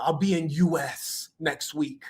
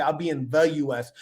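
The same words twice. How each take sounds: First: Slow "in U S", running "in" straight into "U S"; dropped article. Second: "the" clearly marked before U S; stress on THE. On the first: Retold or imitated. Quoting his ungrammatical line, slow and deliberate on "U S". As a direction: stretch out "U S" with no article before it. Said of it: "it wasn't grammatically correct". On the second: Shown as a demonstration. Showing what he didn't say, stress on "the". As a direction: lean on "the", said in full as "thee". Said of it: "He didn't say".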